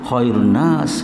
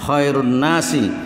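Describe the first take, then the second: First: The last word ends without a final vowel. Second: The last word ends with a short i vowel. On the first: The case ending is dropped, so no grammar error shows. "kita sukun belakangnya" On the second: The word is marked as genitive in the construct phrase. "annas dibaca jer"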